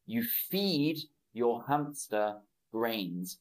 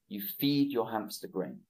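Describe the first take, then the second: First: Slow, clear model sentence, every word spaced out; slow modelling. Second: Fast, natural run-through of the sentence; now say it at full natural speed; normal-speed repeat. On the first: Teacher modelling a sentence for online students, slow and clear. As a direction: say it slowly for learners to copy. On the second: Teacher repeating the sentence at natural speed for students, brisk. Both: Shown as a demonstration. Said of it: "teacher repeats the model sentence".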